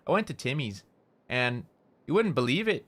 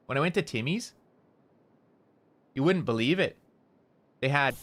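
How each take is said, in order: First: Canadian-style, with a pause after "Timmy's"; pauses between phrases. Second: "Timmy's" and "wouldn't" lifted up at each pause; rising tone at pauses. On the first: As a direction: pause after "Timmy's" before "and you wouldn't believe it". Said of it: "'cause we take little breaks". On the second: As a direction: end each phrase on a rise, Canadian-style. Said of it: "we, like, raise the tone a little bit". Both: Shown as a demonstration.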